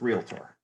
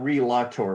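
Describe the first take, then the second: First: No extra vowel is said after the L. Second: An extra vowel is said after the L. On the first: The speaker calls it right. "there's no A in realtor uh, after the L, just realtor" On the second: The speaker calls it wrong. "it's not realtor"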